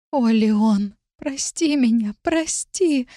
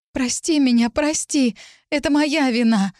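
First: High, breath-held begging, only half whispered; anguished whispering plea. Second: High, frightened pleading; distraught outburst. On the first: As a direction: plead helplessly, watching him suffer. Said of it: "шептала я". (страдальческая мольба, почти шёпотом) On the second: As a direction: burst out begging forgiveness. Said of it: "вспыхнула я". (испуганная мольба высоким голосом) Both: A narrator's reading.

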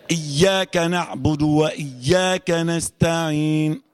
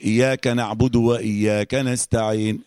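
First: "إياك" with the doubled ياء held clearly, very slow; careful tajweed reading of "إياك نعبد وإياك نستعين"; correct shadda recitation. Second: "إياك" with its doubled ya slurred into one, slow; slow imitation of a common mistake; quoted wrong recitation. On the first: Shown as a demonstration. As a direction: stress the shadda in "إياك", very slowly. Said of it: "ويظهر الهمزة كده أهو". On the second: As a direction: mimic people merging the ياء in "إياك". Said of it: "بتقابل ناس كتير يقول".

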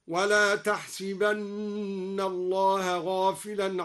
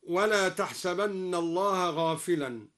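First: تحسبن chanted slowly with the sin broken, tahsibanna; slow tajweed chant of تحسبن as tahsibanna; Quranic recitation. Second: Said in the usual way. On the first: Shown as a demonstration. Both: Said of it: "قرأ بكسر السين في الموضعين".

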